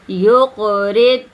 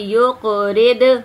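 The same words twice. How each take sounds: First: The consonant is held and the sound stopped. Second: The consonant is released with an echoing bounce. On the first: The speaker calls it right. "आवाज को रोकना है" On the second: The speaker calls it wrong. "ऐसे कर देती हैं बहनें ना"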